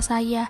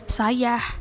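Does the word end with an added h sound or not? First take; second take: no h; added h. First: The word ends plainly on its vowel. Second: The word ends with an added h sound. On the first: The speaker calls it right. "Padahal lafal yang benar yaitu tanpa adanya bunyi huruf H" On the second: The speaker calls it wrong. "mengalami penambahan bunyi H di belakang kata tersebut"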